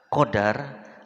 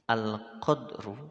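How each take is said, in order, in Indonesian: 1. Bunyi d diikuti vokal a. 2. Bunyi d tidak diikuti vokal. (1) "dibaca fathah" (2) "dibaca sukun dalnya"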